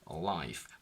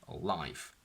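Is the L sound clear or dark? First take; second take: dark; dark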